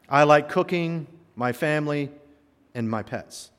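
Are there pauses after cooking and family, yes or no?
yes. There are pauses after cooking and family.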